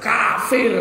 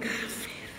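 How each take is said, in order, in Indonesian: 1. Kata itu diucapkan dengan nada kasar. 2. Kata itu diucapkan dengan nada lembut. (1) "Mungkin intonasinya yang kasar" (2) "Kalau enggak ya dilembutin"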